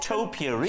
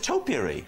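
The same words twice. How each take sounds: First: The word is said to rhyme with 'potpourri'. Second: The word is said the standard way. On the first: The speaker calls it wrong. "a bit like potpourri" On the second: The speaker calls it right. "Well, it's topiary"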